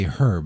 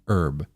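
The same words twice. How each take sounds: First: The H at the start is pronounced. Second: The H at the start is silent. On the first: The speaker calls it wrong. "The fact that you're pronouncing it is actually wrong" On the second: The speaker calls it right. "the American way"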